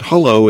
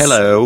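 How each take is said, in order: First: "hello" said as "hullo"; plain-pitched hullo, first vowel like "hut"; goofy American "hullo". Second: A British-accented hello; British hello, demonstrated. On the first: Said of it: "is more like sort of a goofy American". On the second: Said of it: "with a British accent". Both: Shown as a demonstration.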